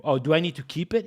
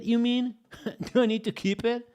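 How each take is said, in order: First: Said in the usual way. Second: High rising question through a laugh; can't believe the suggestion, laugh it out; amused disbelief. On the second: Real, not acted. Rereading chat, amused disbelief.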